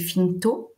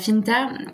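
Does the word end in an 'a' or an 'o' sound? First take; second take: o; a. First: The final vowel sounds like 'o'. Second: The final vowel sounds like 'a'. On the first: The speaker calls it right. "il faudrait prononcer finto" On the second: The speaker calls it wrong. "je trahis un peu euh, euh, l'occitan"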